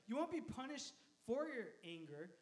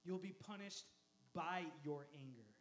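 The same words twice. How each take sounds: First: Careful phrasing with weight on "for"; stress on "for". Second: Pause, then a low, weighted "by"; stress on "by". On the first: Preacher phrasing a distinction carefully, stressing "for". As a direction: set "for" apart as the contrasted word. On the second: Preacher completing the careful contrast, stressing "by", low. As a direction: drop lower and land deliberately on "by". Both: Shown as a demonstration. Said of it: "I wanna phrase this right".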